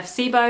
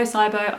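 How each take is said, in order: First: "sibo" said as SEE-boh; SEE-bo pronunciation. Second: "sibo" said as SIGH-boh; SIGH-bo pronunciation. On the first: Unsure how to say the gut condition, "sibo" as SEE-boh. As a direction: say "sibo" with a long ee first. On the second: Offering the other way to say it, "sibo" as SIGH-boh. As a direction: say "sibo" with a long i first. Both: Shown as a demonstration. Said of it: "I never know how to say it".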